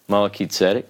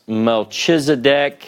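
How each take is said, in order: First: The middle consonant is a hard k sound. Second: The middle consonant is a soft ch sound. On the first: The speaker calls it right. "this is a hard sound, more like a K" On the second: The speaker calls it wrong. "it's sometimes pronounced Melchizedek"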